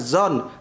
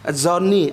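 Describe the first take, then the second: First: The word ends on the consonant, with no final syllable. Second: The word ends with an added final syllable 'ni'. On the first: The speaker calls it right. "kalau singkatnya zon, ninya nggak usah dibaca" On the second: The speaker calls it wrong. "ada yang kebablasan zoni"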